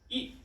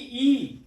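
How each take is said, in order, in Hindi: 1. स्वर छोटा और जल्दी बोला जाता है। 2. स्वर लंबा खींचा जाता है। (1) "बट ई, जल्दी से बोलते हैं" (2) "ना कि ई"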